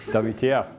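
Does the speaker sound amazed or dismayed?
dismayed. It is said with worried dismay. The new technology seems threatening. "saying WTF in a very different tone of voice"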